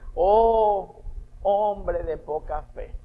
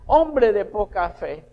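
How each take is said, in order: First: It is said gently, with tenderness. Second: It is said harshly, almost shouted.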